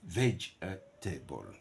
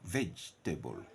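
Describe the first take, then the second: First: The word is said with four syllables. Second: The word is said with three syllables. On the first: "four phonetic syllable" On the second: "Three phonetic syllable"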